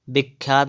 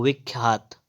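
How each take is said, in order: First: विख्यात starting with b; closed-lip b opening विख्यात; wrong pronunciation. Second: विख्यात starting with v; correct pronunciation. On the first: Teacher showing the error, विख्यात with b. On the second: Teacher correcting, विख्यात with v. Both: Shown as a demonstration. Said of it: "विख्यात नहीं होता है".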